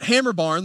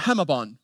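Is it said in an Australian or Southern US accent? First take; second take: Southern US; Australian. First: It is said in a rural Southern US accent. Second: It is said in an Australian accent.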